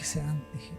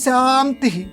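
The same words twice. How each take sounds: First: It is said very softly, inwardly. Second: It is said loudly. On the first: "మూడోది బాగా లోపలికి" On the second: "మొట్టమొదటిదేమో పెద్దదిగా"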